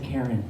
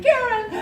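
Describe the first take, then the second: First: Calm rabbi. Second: A high call across the plane; husband calls his wife's name across the cabin. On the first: Rabbi calms her. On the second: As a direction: yell her name to get her attention. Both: Retold or imitated.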